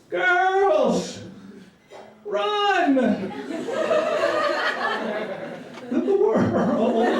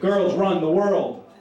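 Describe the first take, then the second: First: It is broken up, alarmed, with pauses. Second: It is one firm, authoritative phrase.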